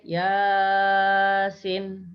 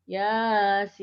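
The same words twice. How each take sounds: First: Yasin with long ya and clipped sin; wrong Yasin. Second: Yasin with short ya and long sin; correct Yasin. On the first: Teacher showing students the wrong reading, long ya. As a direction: stretch the ya, cut the sin short. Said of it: "ya-nya panjang, sinnya pendek". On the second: Teacher modelling the correct reading to students, long sin. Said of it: "ya-nya dibaca pendek dua harokat". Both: Shown as a demonstration.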